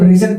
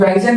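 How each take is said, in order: First: The first vowel sounds like 'ee'. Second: The first vowel sounds like 'eye'. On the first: The speaker calls it right. "इसको रीजन पढ़ते हैं" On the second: The speaker calls it wrong. "इसको हम लोग राइजन नहीं पढ़ते"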